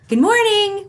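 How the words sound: It is said warmly, with a smile. The speaker calls it right. "good morning with a smile"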